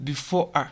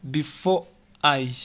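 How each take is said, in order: First: "before a" with "I" weakened to "a"; reduced "I". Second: "before I" with separate, full "I"; unreduced "I". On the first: Teacher showing what we say, reduced "before a". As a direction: link "before" into a short "a". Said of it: "We say". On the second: Teacher showing what we don't say, full "I". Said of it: "we don't say". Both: Shown as a demonstration.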